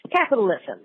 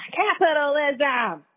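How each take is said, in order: First: Said in the usual way. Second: High, stretched-out cry of capitalism; drawn-out exclamation. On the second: Real, not acted. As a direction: draw the word out high, then let it fall. Word repeated in mock exclamation.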